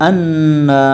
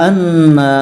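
The two takes are said the same way.

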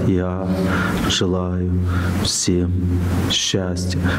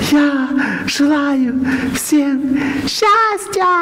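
First: It is said quietly with little emotion. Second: It is said with strong emotion and force. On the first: This repetition overcomes fate. The speaker calls it right. "Вроде бы не так эмоционально, вот не так сильно" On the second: This repetition does not overcome fate. The speaker calls it wrong. "Это эмоциональное повторение"

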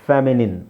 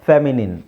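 The two takes are said the same way.

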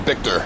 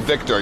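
First: The word begins with a B sound. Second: The word begins with a V sound. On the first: "you'd say Victor" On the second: "who has a V"

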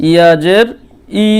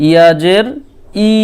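No difference in how they are said.

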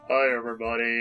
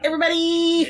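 First: It is said softly and calmly. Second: It is said loudly and piercingly.

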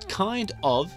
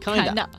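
First: It is said as two full words. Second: It is reduced to one blended word. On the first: "kind of 是这个正确的说法" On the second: "但是我们会把它简称kinda"

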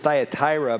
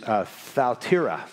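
First: The first syllable does not sound like 'thou'. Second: The first syllable sounds like 'thou'. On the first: This is how most people usually say it. The speaker calls it wrong. "most of us would pronounce this Thyatira" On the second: This is the original Greek pronunciation. The speaker calls it right. "the correct pronunciation is Thyatira"

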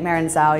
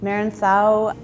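First: The name is said a non-Spanish way. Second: The name is said the Spanish way. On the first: "you're also correct" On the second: "which is the Spanish pronunciation"

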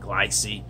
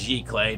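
First: The word begins with a hard 'gly' sound. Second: The word begins with a soft 'zhee' sound. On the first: The speaker calls it wrong. "not glycee" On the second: The speaker calls it right. "It's pronounced giclee"

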